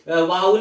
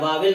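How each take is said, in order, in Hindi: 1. शब्द का अंत ul ध्वनि से होता है। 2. शब्द का अंत el ध्वनि से होता है। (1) "ई एल अल मिलके वाव अल हो गया" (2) "वावेल नहीं होता, वो गलत है"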